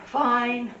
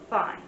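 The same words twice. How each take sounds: First: Emphatic fine. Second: Said in the usual way. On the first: Shown as a demonstration. Sign teacher showing ways to say an opinion, emphatic fine. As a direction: stretch "Fine" out with force. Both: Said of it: "So you can say".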